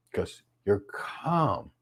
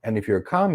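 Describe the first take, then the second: First: Calm. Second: Said in the usual way. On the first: Shown as a demonstration. Speaker models calm in voice.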